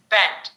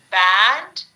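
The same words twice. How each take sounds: First: Band with a wider eh, falling; eh sound. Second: Band with open æ, loud rise; a sound. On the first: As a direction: say band as bend. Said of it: "right hand side, eh". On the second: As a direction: drop the jaw on Band. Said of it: "left hand side, a". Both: Shown as a demonstration.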